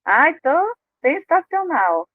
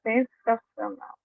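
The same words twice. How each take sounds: First: "tô sensacional" drawn out slowly and pitched high; fake cheer. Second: "sensacional" said slowly, soft and flat; meh, saying you're great without meaning it; flat half-hearted. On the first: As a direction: stretch "sensacional" slowly in a falsely upbeat way. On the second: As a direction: let "sensacional" drag, soft and unconvinced. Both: Shown as a demonstration. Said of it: "Eu uso essa palavra quando eu tô meio assim".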